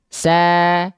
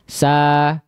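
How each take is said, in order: First: The vowel is said with slightly smiling lips. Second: The vowel is said with unsmiling lips. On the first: The speaker calls it right. "kalau kita senyum sedikit" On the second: The speaker calls it wrong. "kalau kita hanya sekedar membuka mulut dan tidak diberikan senyuman sedikit"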